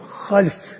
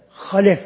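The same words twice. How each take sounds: First: The L carries no vowel after it. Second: The L is followed by an a vowel. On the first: A bad successor generation came after them. "o zaman lamın cizim geliyor" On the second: A good successor generation came after them. "bu lamın üstüne geliyor, fethesiyle"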